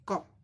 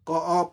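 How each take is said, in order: First: The vowel is a short half sound. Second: The vowel is full and drawn apart. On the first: The speaker calls it right. "Half अ" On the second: The speaker calls it wrong. "क अप नहीं"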